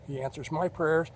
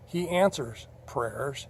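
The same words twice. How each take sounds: First: "my" stressed as the key word. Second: Answers stretched slow with a rising lift; stress on answers. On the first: Testifying to viewers, "my" stressed. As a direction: put the weight on "my". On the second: Testifying to viewers, slow with "answers" stressed. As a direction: lean slowly on "answers". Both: Shown as a demonstration.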